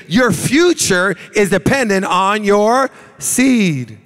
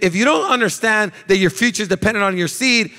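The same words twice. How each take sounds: First: Slow preaching emphasis. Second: Said in the usual way. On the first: Acted. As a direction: preach it out slowly and hard. Preacher drives home key line.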